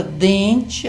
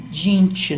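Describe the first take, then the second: First: "dente" with a clear E in the stressed first syllable; correct pronunciation. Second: "dente" with I in the first syllable, "dinte"; wrong pronunciation. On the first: Professor showing correct speech, "dente" with stressed E. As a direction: say "dente" normally, DEN with E. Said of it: "as pessoas pronunciam correto mesmo". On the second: Professor showing what nobody says, "dente" mispronounced as "dinte". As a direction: turn the stressed E of "dente" into I. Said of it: "Ninguém fala dinte". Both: Shown as a demonstration.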